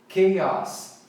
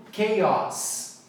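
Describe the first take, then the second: No difference in how they are said.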